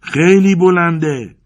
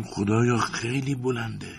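First: Long, high, full shout; frightened yell. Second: High, hushed, slow gasp of dread; panicked cry. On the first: Terrified climber shouting up to his friend, yelling. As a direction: yell it slowly at the top of your voice. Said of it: "دوباره داد زدم". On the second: Climber looking back down at the height, panicked. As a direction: stretch it out high and soft in terror. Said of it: "سراسیمه و با وحشت به سمت جافی فریاد کردم". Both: A narrator's reading.

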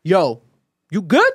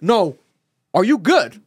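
First: Gangster-style check-in, rising question; punchy, raised question on "good". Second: Insistent gangster-style re-ask, falling at the end; louder, punched "are you good". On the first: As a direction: imitate a tough friend checking in. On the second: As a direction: press the question like a tough friend. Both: Retold or imitated. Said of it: "[name] on some gangster shit".

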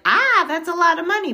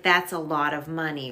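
First: Higher, louder gasp of sticker shock; loud, surprised reaction to the price. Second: Said in the usual way. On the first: Retold or imitated. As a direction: blurt it out, startled by the cost. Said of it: "And I was like". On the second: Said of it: "I would say, like".

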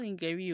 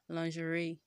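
First: Lingerie misread as LING-geh-ree; wrong pronunciation of lingerie. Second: Lingerie as lon-zhuh-RAY; lingerie, "lawn-zhə-ray"; correct pronunciation of lingerie. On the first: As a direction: say lingerie with a hard g. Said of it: "it's not lingerie". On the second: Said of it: "oh, it is lingerie". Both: Shown as a demonstration.

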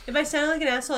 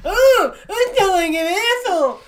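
First: Said in the usual way. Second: High, loud mimicry; mocking echo. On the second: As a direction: throw the insult back in a high mock voice. Mockingly throws insult back.

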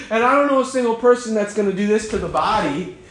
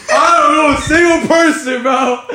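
First: Said in the usual way. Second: High, loud disbelieving shout; loud incredulous shout. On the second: Real, not acted. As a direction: yell it in disbelief. Ranting about the stance.

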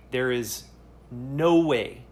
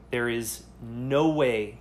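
Both takes have the same delivery.

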